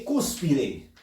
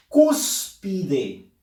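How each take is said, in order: First: "cúspide" with the weight on "cús"; stress on first syllable. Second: "cúspide" broken up, "CÚS-pi-de", first syllable strongest; stress on CÚS. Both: Shown as a demonstration. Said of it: "Fuerza de voz en la sílaba cus".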